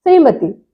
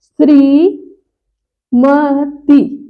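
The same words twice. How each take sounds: First: श्रीमती run together quickly, pitched up; जल्दी वाला उच्चारण. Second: श्रीमती very slow, long shree, pause, then ma-ti; शुद्ध उच्चारण. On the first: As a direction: rattle off श्रीमती as one word. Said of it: "जल्दी बोल देते हैं ना". (श्रीमती जल्दी से, एक साथ) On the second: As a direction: break श्रीमती into drawn-out syllables. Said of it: "लेकिन लिखा क्या जाता है". (श्रीमती को "श्री... म-ति" धीरे) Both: Shown as a demonstration.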